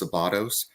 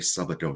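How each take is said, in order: First: The name is said with an American pronunciation. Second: The name is said with a Hungarian pronunciation. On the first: This is how the name is said in America. "the Americanized version of saying it" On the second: This is how the family says the name. "the family name is Hungarian, so we we would say"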